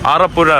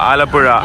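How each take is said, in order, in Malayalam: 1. രണ്ടാമത്തെ വ്യഞ്ജനം R ശബ്ദമാണ്. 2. രണ്ടാമത്തെ വ്യഞ്ജനം L ശബ്ദമാണ്.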